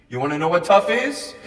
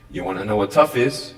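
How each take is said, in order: First: Said in the usual way. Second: The repeat, said low and sincere; low earnest question. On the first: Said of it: "repeated question, first take". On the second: Acted. Speaker asks the students again, low and earnest. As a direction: drop the pitch well down and ask it gently. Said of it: "repeated question, lower second take".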